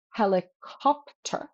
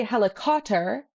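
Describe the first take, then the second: First: Helicopter slow, broken up, with a clear P; P pronounced in helicopter. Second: Helicopter with the P left out, like "heli-cotter"; silent-P helicopter. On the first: Teacher shows what we do say, helicopter slowly with its P. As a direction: sound the P in helicopter, drawn out. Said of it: "but we do say". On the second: Teacher shows learners what we don't say, helicopter without its P. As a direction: drop the P in helicopter entirely. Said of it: "We don't say helicopter". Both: Shown as a demonstration.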